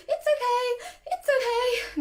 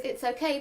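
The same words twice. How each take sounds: First: High panicky squeal of reassurance; shrieky-high, anxious sing-out; startling, high-pitched. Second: Said in the usual way. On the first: Shown as a demonstration. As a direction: reassure a dog while clearly panicking. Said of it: "quite startling and quite high pitched".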